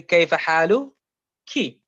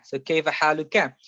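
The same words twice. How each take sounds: First: حالك said "haaluki", ending in a clear -ki; كيف حالك as "kayfa haaluki"; feminine form. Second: حالك said "haaluka", ending in a clear -ka; كيف حالك as "kayfa haaluka"; masculine form. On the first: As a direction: end حالك on "ki" for a woman. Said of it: "and you're speaking to a female". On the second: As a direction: end حالك on an open "ka" for a man. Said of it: "and you're speaking to a male". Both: Shown as a demonstration.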